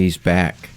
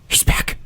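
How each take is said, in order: First: It is said plainly, without a gasp. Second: It is said with a gasp, like Cornelius Fudge.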